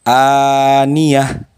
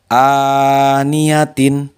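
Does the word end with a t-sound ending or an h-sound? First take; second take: h-sound; t-sound. First: The word ends with an h sound. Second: The word ends with a -tin syllable. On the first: The reader stops at this word. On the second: The reader continues without stopping.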